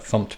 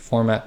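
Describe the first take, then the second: First: It is said as one syllable, 'fumpt'. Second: It is said as two syllables, 'for-mat'. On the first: "technically it is fumpt" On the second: "I tend to call this the format package"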